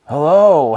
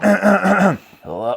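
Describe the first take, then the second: First: It is said in a clear, warmed-up voice. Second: It is said in a groggy morning voice.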